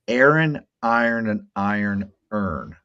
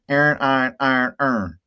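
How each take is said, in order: First: Each word is carefully over-pronounced and distinct. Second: In a West Baltimore accent, the words sound alike.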